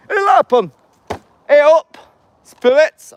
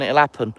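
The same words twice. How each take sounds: First: Very high, very loud Yorkshire yell; Yorkshire shout. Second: Said in the usual way. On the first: Pretend. Vlogger calling spirits in a sudden loud Yorkshire shout. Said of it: "I don't know why I'm Yorkshire all of a sudden".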